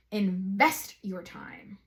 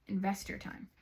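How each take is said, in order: First: INVEST drawn out slowly with weight; emphatic urging. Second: Softer, understated piece of advice; quiet urging. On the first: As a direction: stretch and lean on the word Invest. Urging advice, said twice. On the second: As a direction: drop the volume and say it simply. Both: Real, not acted.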